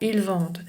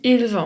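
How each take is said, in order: First: The word ends with an audible d sound. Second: The word ends on the vowel, no d sound. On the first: The speaker calls it wrong. "je dis pas ils vendent" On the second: The speaker calls it right. "Je dis il vend"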